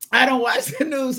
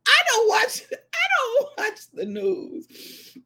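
First: Said in the usual way. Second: High, drawn-out disclaimer; comic protest. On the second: Real, not acted. Telling viewers of mother's news bulletin, high comic protest. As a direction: pitch it up and stretch it out.

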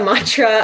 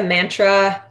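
First: Said in the usual way. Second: "mantra" with a flat a as in "man", mæntra; Canadian accent. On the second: Real, not acted. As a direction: say "mantra" with the a of "cat", Canadian style. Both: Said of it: "that was my Canadian accent coming out".

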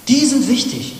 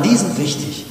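First: "Die sind wichtig" higher and louder on die; emphatic repeat. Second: Said in the usual way. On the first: Shown as a demonstration. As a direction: hammer it home the second time.

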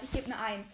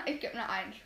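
First: Said in the usual way. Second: Laughing through the words. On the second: Real, not acted. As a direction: giggle while saying it.

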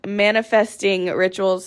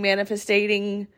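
First: Said in the usual way. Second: "manifesting" slurred into "manifestating", wrong syllables; stumbled word. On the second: Real, not acted. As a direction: trip over "manifesting", adding a syllable.

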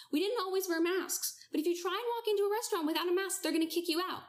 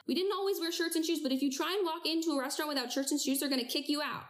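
First: Raised pitch, driving the point home; emphatic higher repeat. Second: Said in the usual way. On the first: Real, not acted. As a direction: say it again higher and pushier. Repeated louder, higher punchline.

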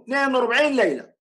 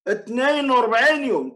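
First: وأربعين hit again, quicker delivery; stressed, faster repeat. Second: وأربعين hit hard with a falling tune; stressed number. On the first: Sheikh repeating the number impatiently, faster. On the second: Sheikh drilling the number into his opponent, stressed. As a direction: lean on وأربعين and let it drop. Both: Real, not acted. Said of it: "الحديث يقول".

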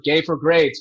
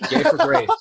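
First: Said in the usual way. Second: Hammed-up high punchline. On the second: Shown as a demonstration. Punning on the professor story, hammed-up high. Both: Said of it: "Is that a pun?".

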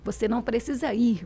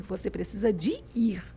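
First: Said in the usual way. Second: "de ir" said as "dji ir", whispered; soft mineiro "precisa de ir"; Minas phrasing. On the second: Shown as a demonstration. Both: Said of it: "Deixa eu repetir, porque é importante".

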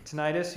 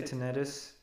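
First: Tinnitus as tuh-NYE-tus; long-I pronunciation. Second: Tinnitus as tuh-NED-us; short E in the middle of tinnitus; short-E pronunciation. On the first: Showing one of two options, Tinnitus as tuh-NYE-tus. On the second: Showing the alternative way, tinnitus as tuh-NED-us. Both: Shown as a demonstration. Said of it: "You can say tinnitus".

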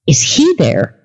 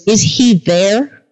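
First: Said in the usual way. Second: Drawn-out question. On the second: Retold or imitated. Driver's question, first take.

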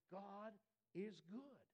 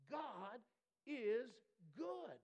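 First: Slow, gentle, unhurried affirmation; calm slow praise. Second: Loud, much higher, each word hammered apart; proclaimed shout. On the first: Quiet model of praising response. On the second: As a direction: cry it out like a victory. Preacher's climactic proclamation. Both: Acted.

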